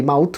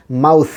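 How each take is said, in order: First: মাউথ ending in a Bengali থ stop; common mispronunciation. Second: মাউথ ending in a long hissed English th; correct final th. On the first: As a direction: close মাউথ on a hard t-h. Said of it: "আমরা বলি". (মাউথ-এর শেষে বাংলা থ) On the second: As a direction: let air run on at the end of মাউথ. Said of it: "উচ্চারণ যেন আর ভুল না হয়". (মাউথ-এর শেষে ইংরেজি th) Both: Shown as a demonstration.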